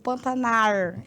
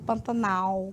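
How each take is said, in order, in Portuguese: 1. O som final é R. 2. O som final é L. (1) "esse L vai virar R" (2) "em vez de Pantanal"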